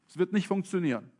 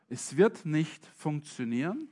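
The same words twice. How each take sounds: First: The phrase is spoken at a normal pace. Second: The phrase is spoken very slowly.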